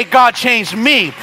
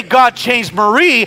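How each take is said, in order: First: Slow, sincere prayer for oneself; earnest humble plea; right prayer. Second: Slow, pleading prayer naming Marie; mild mock prayer; wrong prayer. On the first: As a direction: pray slowly and humbly for yourself. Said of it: "I gotta pray". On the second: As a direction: pray slowly for someone else to change. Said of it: "I can't pray". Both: Shown as a demonstration.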